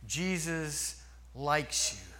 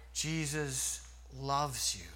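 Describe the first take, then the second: First: Said in the usual way. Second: Softer, slow and tender. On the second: Shown as a demonstration. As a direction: let the love sink in gently.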